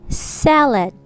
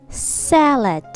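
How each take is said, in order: Both takes have the same delivery.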